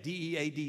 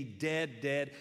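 First: D E A D spelled letter by letter. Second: Dead, dead hit as two heavy single beats; repeated emphasis. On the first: Preacher spelling D E A D to stress the girl is dead. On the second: Preacher repeating dead, dead to insist she truly died. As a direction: hammer dead twice. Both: Shown as a demonstration. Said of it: "She's dead".

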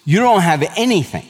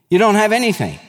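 First: Said in the usual way. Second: Don't hit higher, pressed home; emphatic repeat. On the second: Real, not acted. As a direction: repeat it, lifting "don't" well up. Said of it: "repeated with emphasis".

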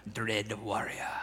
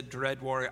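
First: Low Scottish accent. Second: Said in the usual way. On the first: Shown as a demonstration. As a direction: put on a deep Scottish burr. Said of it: "say it with a Scottish accent". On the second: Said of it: "I wanted to say it".

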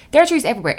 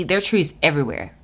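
First: Higher and louder, delighted; excited. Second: Said in the usual way. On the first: Shown as a demonstration. Praising Maryland trees to viewers, delighted and louder. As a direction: say it again with real delight.

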